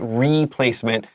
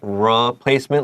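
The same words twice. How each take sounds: First: The first syllable has a full 'ee' vowel. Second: The first syllable has a short 'uh' vowel. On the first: The speaker calls it wrong. "We have R E, but we really don't say replacement" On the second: The speaker calls it right. "It's more like replacement, like umbrella, a short U sound here"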